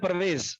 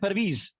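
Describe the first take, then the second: First: It uses the Indian subcontinent vowel. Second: It uses the standard Persian vowel. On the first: This is the local subcontinent usage. The speaker calls it wrong. "हम लोग बोलते हैं परवेज" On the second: This is the standard usage of native speakers. The speaker calls it right. "इसका सही प्रोनाउंसिएशन है परवीज"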